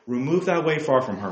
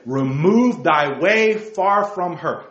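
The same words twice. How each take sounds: First: Said in the usual way. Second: "Remove thy way far from her" slow, each word weighted, REMOVE hit; emphatic slow verse. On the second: Real, not acted. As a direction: hammer the verse home slowly. Preacher repeats verse for emphasis.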